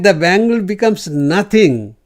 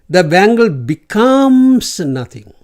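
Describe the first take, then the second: First: The stress is on the word nothing. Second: The stress falls on a word other than nothing.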